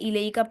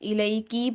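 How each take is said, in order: First: The final syllable has an a vowel. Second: The final syllable has an i vowel. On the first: The speaker calls it right. "काफ पर जबर" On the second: The speaker calls it wrong. "एक हरकत की जगह दूसरी हरकत पढ़ देना"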